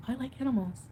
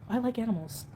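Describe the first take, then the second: No difference in how they are said.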